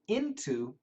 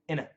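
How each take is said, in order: First: The word is said in full as into. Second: The word is said fast, reduced to inna.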